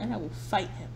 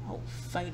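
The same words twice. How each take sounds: First: Said in the usual way. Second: Whispering. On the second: Pretend. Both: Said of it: "I have to whisper".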